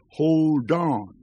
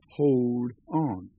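First: The D runs straight into the next vowel. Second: The two words are said separately. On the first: It conveys strength and power. "connected the D of hold with the O of on" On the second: It sounds weak. "Pronounced correctly, this song would be hold on"

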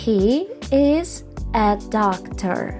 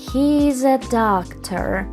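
First: He is is said as two full words. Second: He is is joined into one short syllable.

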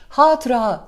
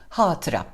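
First: The final a is long. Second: The final a is short. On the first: The speaker calls it wrong. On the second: The speaker calls it right.

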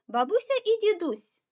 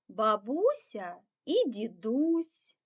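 First: The phrase is read at a fast pace. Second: The phrase is read at a slow pace. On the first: "Тепер спробуємо прочитати швидше" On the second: "спробуємо спочатку скоромовочку прочитати повільно"

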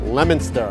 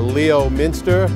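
First: The name is said in the short local way, like 'Lemin-ster'. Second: The name is sounded out as spelled, like 'Lee-oh-minster'. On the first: This is how locals say the name. The speaker calls it right. "it's Leominster. That's it" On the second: This is how outsiders say the name. The speaker calls it wrong. "It's not Leominster"

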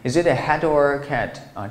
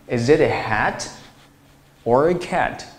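First: 'Hat' runs straight into 'or' without pause. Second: There is a short pause after 'hat'. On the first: The speaker calls it wrong. "但是我们不要把它读成" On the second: The speaker calls it right. "看我是怎么读的"

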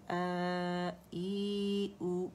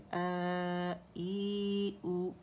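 First: The vowels are drawn out long and melodic. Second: The same.

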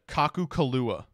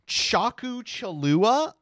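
First: The name begins with a hard k sound. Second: The name begins with a ch sound. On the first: "I'm gonna try it" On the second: "you say the CH?"

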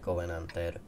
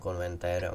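First: It is said as 'covenanter', without that extra n. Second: It is said as 'konventér', with an n after o. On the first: The speaker calls it right. "on to je Covenanter" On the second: The speaker calls it wrong. "Já říkám konventér"

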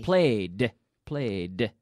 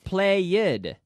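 First: The word has one syllable ending in a D. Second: The word has two syllables, with an extra ending. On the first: The speaker calls it right. "You have to force that D sound into the same syllable" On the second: The speaker calls it wrong. "But not played"

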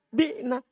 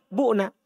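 First: The first vowel is an 'i' sound. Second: The first vowel is a 'u' sound. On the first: It could be confused with the active form. The speaker calls it wrong. "Kalau antum malah ambil kasro" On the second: It stays distinct from the active form. The speaker calls it right. "Jangan ambil kasro, ambil dhamma"

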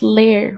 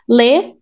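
First: The final R sound is pronounced. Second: The final R sound is dropped.

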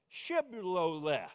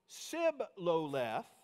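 First: The word begins with an sh sound. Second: The word begins with a plain s sound. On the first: The speaker calls it right. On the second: The speaker calls it wrong.

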